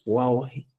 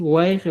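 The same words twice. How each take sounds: First: "guaje" with an AU glide and I ending; new form WAU-JI. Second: "guaje" with an AI glide and E ending; old form WAI-JE. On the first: Teacher gives learners the replacement, "guaje" as wau-hi. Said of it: "vas a decir guaje". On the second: Teacher cites the form to replace, "guaje" as wai-he. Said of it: "En vez de decir guaje". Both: Shown as a demonstration.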